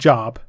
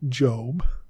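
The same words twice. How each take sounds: First: The vowel is short, as in 'rob'. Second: The vowel is long, as in 'robe'. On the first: The speaker calls it wrong. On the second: The speaker calls it right.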